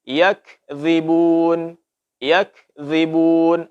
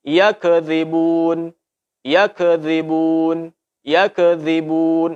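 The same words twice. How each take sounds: First: Slow yakzibun, kaf not echoed; unbounced kaf. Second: Slow yakzibun with kaf echoed like a-ka; bounced kaf. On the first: Teacher reciting the correct yakzibun. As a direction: recite yakzibun slowly, kaf held still. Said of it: "Mesti kita ucapkan yak". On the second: Teacher reciting the wrong bounced yakzibun. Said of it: "Maka ini adalah salah". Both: Shown as a demonstration.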